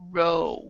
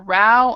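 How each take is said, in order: First: The vowel rhymes with go. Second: The vowel rhymes with cow. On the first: It means moving a boat with oars. "to row is what they are doing" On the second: It means an argument. "a row is an argument"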